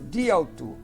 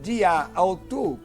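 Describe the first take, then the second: First: The first word's final vowel is dropped. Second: The first word's final vowel is kept. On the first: The speaker calls it right. "Se você lê direto de ao tu" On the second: The speaker calls it wrong. "ao invés de dizer de a ao tu, porque são dois, dois alfas"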